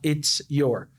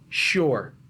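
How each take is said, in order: First: Both words are said separately and in full. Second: The phrase is squeezed into one syllable. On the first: "Ao invés de falar it's your" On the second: "eu junto e falo sure"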